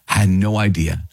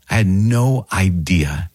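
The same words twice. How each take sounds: First: Said in the usual way. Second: Slow realization. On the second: Real, not acted.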